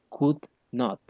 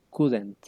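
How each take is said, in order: First: Not is said as a separate full word. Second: Not is reduced and joined onto could. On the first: "Si uno quisiera decirlo sin contracción" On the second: "quisiera contraerlo"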